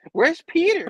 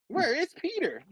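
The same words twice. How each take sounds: First: High, loud mock-frantic question; hammed-up anxious shriek; worried cry. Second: High, less forceful mock-anxious question; high imitated worry; worried plea. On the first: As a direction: call out in put-on panic. Acting May asking for Peter. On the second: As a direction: ask it in a put-on high voice, each word apart. Repeats it drawn out, softer.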